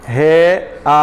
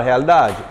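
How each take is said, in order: First: "Realidade" with every syllable apart; split into syllables. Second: Said in the usual way. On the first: Shown as a demonstration. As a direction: chop "Realidade" into re-a-li-da-de, pausing between. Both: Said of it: "não se separa".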